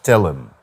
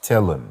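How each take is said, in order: No difference in how they are said.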